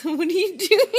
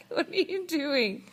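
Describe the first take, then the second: First: Laughing through the question; giggling as you ask. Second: Said in the usual way. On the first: Real, not acted. Parent laughs at toddler's face.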